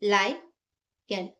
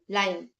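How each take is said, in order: First: लायन said very slowly as two syllables, ला then यन; split into syllables. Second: Said in the usual way. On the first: Shown as a demonstration. Teacher to students showing the syllable split of लायन, slow. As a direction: break लायन apart between the two vowels, drawn out. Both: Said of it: "दो vowel के बीच में हमें divide करना".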